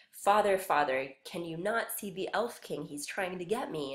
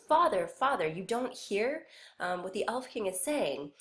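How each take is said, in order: First: Scared son. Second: Put-on a child calling out in fear; scared son. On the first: Acted. Boy pleading with his father, mildly frightened. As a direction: call your father in mild fear. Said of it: "the son is saying". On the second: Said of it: "He's still scared".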